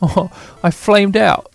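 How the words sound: It is said in a put-on British accent.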